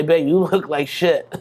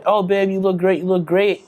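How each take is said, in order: First: Slow, blunt honest partner with a laugh; a hint of a blunt girlfriend. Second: Higher, sweet fawning partner voice; lightly voiced gushing girlfriend; mock flattering partner. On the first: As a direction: deliver the hard truth slowly, half laughing. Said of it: "she's gonna say". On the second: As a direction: gush fake praise like a doting partner. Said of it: "significant others say".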